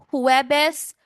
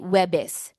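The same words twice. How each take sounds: First: The word is said with all its syllables. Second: The word is said without its first syllable.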